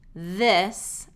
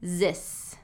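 First: The word begins with a voiced TH sound. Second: The word begins with a Z sound. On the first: The speaker calls it right. "instead of the voiced TH sound" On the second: The speaker calls it wrong. "I hear D or Z sound"

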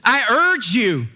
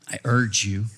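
First: It is said intensely with a rising voice. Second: It is said calmly with a level voice. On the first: "get a little amped up and you can hear his voice rising" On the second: "it's not"

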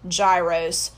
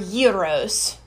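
First: The word has an everyday English pronunciation. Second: The word has a Greek-sounding pronunciation.

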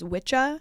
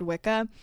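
First: The middle consonant is a soft 'ch' sound. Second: The middle consonant is a hard 'k' sound. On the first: This is the original pronunciation. "originally been pronounced as a soft C" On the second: This pronunciation came from repeated mispronunciation. "it got mispronounced enough to have been turned into the word Wicca"

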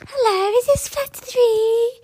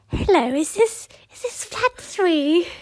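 First: It is said in a moany, whining voice. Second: It is said in a plain, ordinary voice.

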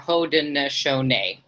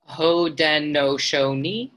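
First: The final syllable does not sound like 'knee'. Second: The final syllable sounds like 'knee'. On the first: "or Haudenosaunee. Both of those are right" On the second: "like a knee"

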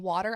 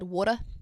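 First: The word is said in a plain, non-New Zealand accent. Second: The word is said in a New Zealand accent. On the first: "instead of saying water" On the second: "I came home with an accent. ... I said water"

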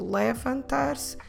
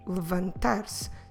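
First: A vowel is pronounced between the L and V. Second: The L goes straight into the V, no vowel. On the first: The speaker calls it wrong. "you don't need to say levantar-se" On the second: The speaker calls it right. "go from the L sound to the V sound with nothing in the middle"

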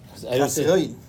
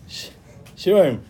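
First: The consonant before the vowel is a plain s. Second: The consonant before the vowel is sh.

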